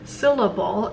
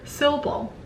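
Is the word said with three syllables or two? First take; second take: three; two. First: The word is said with all three syllables. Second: The middle syllable is dropped, leaving two. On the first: The speaker calls it right. "It has actually three beat syllable" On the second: The speaker calls it wrong. "If you were to skip on the second syllable"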